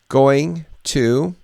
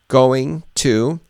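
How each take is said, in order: The two takes are said the same way.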